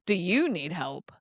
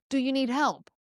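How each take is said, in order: First: Lower, condescending jab with weight on "you"; mocking. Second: Kind, sincere offer of help; caring. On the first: Coworker watching you struggle with technology, mocking. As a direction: make fun of them, leaning on "you". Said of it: "they're making fun of you". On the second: Kind neighbor seeing you juggle groceries, caring. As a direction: offer help kindly, pitch lifted a little. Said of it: "it can be very caring". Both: Shown as a demonstration.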